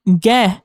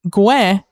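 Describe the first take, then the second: First: Ge said as "geh" with a hard G; hard G in ge, silent U; no U sound. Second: Gue said as "gweh"; pronounced with U sound. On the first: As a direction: say ge as "geh", no W glide. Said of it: "no U sound". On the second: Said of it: "pronounced gue and not ge". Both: Shown as a demonstration.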